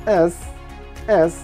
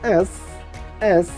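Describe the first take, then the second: The two takes are said the same way.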